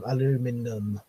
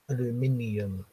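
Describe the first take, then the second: First: The word ends in num with four syllables. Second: The word ends in nium with five syllables. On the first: This is how Americans say it. "It's just num to them" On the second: This is how non-Americans say it. "not aluminium"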